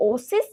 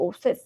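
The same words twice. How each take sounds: First: ওসিস ending in a short "-sis"; singular -is ending. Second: ওসিস said as "oases", ending "-ses"; plural -es ending. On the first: Teacher gives students the singular, ওসিস ending in "-is". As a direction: say ওসিস with a short i in the last syllable. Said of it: "শেষে যদি আইএস থাকে". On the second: Teacher turns singular into plural, ওসিস ending in "-es". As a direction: open the last vowel of ওসিস to e. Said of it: "আইএসটাকে তুমি ইএস করে দাও". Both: Shown as a demonstration.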